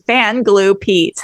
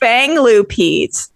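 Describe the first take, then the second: First: The first word ends in a plain n sound. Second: The first word ends in an ng sound. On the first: "because I said fan glue Pete. That's how I read it" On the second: "fang glue. Fang, watch me fuck this up"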